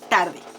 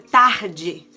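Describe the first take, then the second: First: The R is a tap, like in Spanish. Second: The R is throaty and the D buzzes. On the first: "Tarde se dice igual" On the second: "la R en algunos lugares es gutural"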